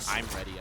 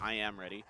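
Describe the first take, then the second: First: The words 'I am' are joined into 'I'm'. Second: The words 'I am' are said fully and separately. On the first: "if you want to use the contraction" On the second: "It's actually I Am Ready"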